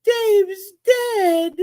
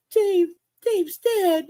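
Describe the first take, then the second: First: High, anguished wail, said quickly; hammed-up grief, pitched up; distraught cry. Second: High and slow, drawn out in disbelief; stunned mock-mourning, stretched out; slow grieving wail. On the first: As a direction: wail the news in shock. Retold despair over dead fish. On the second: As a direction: let the words drag with grief. Repeats despair, slower.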